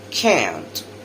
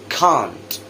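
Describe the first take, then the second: First: American accent, with a flatter 'eh'-like vowel. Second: British accent, with an open 'ah' vowel. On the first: "the American later" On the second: "the British version first"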